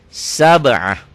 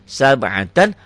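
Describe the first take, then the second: First: The word ends with a soft h sound. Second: The word ends with a t and n sound. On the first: The reader stops on this word. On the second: The reader keeps going without stopping.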